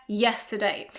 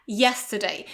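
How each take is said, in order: No difference in how they are said.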